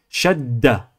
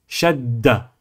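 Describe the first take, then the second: First: The middle consonant is held long. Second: The same.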